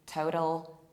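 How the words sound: It is said in an American accent.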